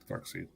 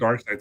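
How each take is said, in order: First: The second part rhymes with 'read'. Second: The second part rhymes with 'ride'. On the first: The speaker calls it right. "it's dark seed, and that's correct" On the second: The speaker calls it wrong. "I used to pronounce it dark side too"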